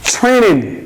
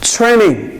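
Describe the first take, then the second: First: The tr sounds close to a ch sound. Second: The tr sounds close to a ch sound.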